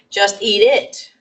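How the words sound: The stress falls on the final word it. "that's the heavy end stress on that final um, pronominal pronoun"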